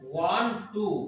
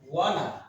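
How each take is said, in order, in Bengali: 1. দুটি শব্দই পুরোপুরি ও আলাদাভাবে বলা হয়। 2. শব্দ দুটি মিশে একটি ছোট শব্দ হয়ে যায়।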